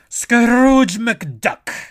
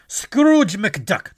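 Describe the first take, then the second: First: It is said in a stronger Scrooge McDuck impression. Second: It is said in a plainer, weaker voice.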